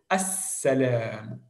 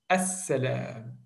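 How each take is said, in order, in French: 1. Le son s est tenu longtemps et doublé. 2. Le son s est tenu longtemps et doublé.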